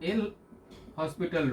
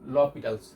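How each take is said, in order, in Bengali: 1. এটি 'el hospital' হিসেবে বলা হয়, h সহ। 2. এটি 'lopitals' হিসেবে বলা হয়, h ছাড়া। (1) "that is এল হসপিটাল rule" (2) "উচ্চারণটা এটাই"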